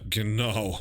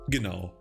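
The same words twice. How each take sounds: First: It is said in an ironic, mocking tone. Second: It is said in a plain, sincere agreeing tone. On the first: The speaker does not really agree. "in an ironic way" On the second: The speaker simply agrees. "You just say genau"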